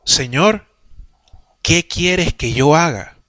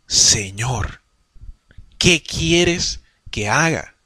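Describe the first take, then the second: First: Said in the usual way. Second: Low, soft, very slow surrender; a broken man asking what to do, slowly; humbled Saul. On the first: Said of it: "ya le dijo". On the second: Acted. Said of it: "cambió y dijo". (Pablo rendido, bajo, suave y muy lento)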